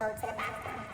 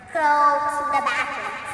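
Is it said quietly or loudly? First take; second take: quietly; loudly. First: It is said fairly quietly. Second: It is said loudly.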